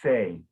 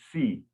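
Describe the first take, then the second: First: The vowel sounds like the 'ay' in 'say'. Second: The vowel sounds like the 'ee' in 'see'. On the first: The speaker calls it right. "but it's say" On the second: The speaker calls it wrong. "you're pronouncing it a little bit like yes, like S I M. So you said C"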